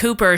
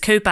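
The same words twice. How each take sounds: First: It is said in a general American accent. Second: It is said in a Boston accent. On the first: "like a basic American" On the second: "she says Cooper"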